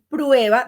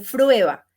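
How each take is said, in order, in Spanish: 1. La palabra empieza con un sonido p. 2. La palabra empieza con un sonido f. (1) "si ella va a decir prueba" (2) "todo lo que es con P R, todo le suena con F R"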